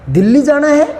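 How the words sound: It is said with strong exclamatory feeling. Going to Delhi is met with surprise or strong feeling. "विस्मयबोधक चिन्ह लगा दो।"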